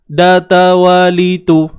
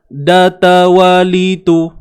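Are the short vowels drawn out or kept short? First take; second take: short; short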